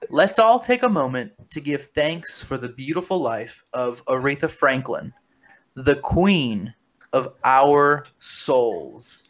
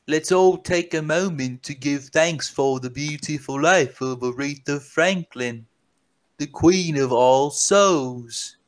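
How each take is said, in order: First: Classic American accent. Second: Reading the tweet as the Walrus himself, slowing on the last words; lightly put-on voice of the ex-Beatle, unhurried at the end; [name] voice. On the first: Shown as a demonstration. Rereading the tweet for listeners who want translation, in an American accent. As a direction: read it again like a plain American, stretching the last words. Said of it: "I'm gonna say that in an American accent". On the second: Reading McCartney's tweet to the podcast listeners, in his put-on voice. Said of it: "This is the walrus that's talking here".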